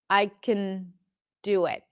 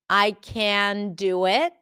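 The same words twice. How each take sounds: First: The vowel in 'can' is reduced to schwa. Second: The vowel in 'can' is full and clear. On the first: The speaker calls it right. "just reducing it and allowing the consonants to hold the substance" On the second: The speaker calls it wrong. "pronouncing the full vowel"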